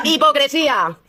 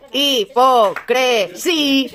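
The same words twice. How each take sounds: First: Said in the usual way. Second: Hipocresía very slowly, each syllable separated. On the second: Shown as a demonstration. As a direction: dictate Hipocresía in drawn-out, isolated syllables. Breaks the word up for spellers.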